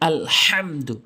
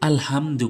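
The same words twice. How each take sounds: First: The h sound comes from deep in the throat. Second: The h sound is plain, not from the throat. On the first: The speaker calls it right. "হলকের মাঝখান থেকে বলতে হবে" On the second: The speaker calls it wrong. "অনেকে যেটা সবচেয়ে বেশি ভুল করে আলহামদু বলে"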